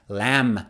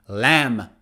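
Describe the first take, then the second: The two takes are said the same way.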